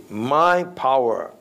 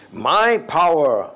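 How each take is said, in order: First: "My" leaned on slowly, a little raised; slow weight on "My"; stress on MY. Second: "My" punched louder and higher, slow; stress on MY. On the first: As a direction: quote the proud boast, stressing my. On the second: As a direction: hammer "My" slowly and loudly. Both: Shown as a demonstration. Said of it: "underline the word "my".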